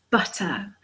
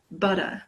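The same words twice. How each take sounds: First: Crisp T in "butter"; British T. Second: "butter" with the T as a soft D; American soft T. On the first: English teacher shows learners the British T, crisp "butter". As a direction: say "butter" with a clear T in the middle. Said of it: "we always pronounce the T sound". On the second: British teacher imitates Americans, "butter" with a D sound. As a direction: say "butter" like "budder", American style. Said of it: "It sounds more like a D". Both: Shown as a demonstration.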